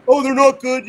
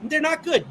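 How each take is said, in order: First: Lightly mocking, higher and louder dismissive whine; mock dismissive fan. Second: Flat, firm stress on not; blunt own verdict. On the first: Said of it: "a person that's just like". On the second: Real, not acted. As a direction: say not hard and final, no sneer. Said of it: "I'm all puss".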